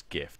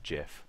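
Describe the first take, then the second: First: Gif with a hard G, as in gift. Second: Gif said like jif; soft G. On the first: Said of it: "do you pronounce it properly". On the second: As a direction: start gif with a J sound, as in jiffy. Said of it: "supposed to pronounce it like". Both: Shown as a demonstration.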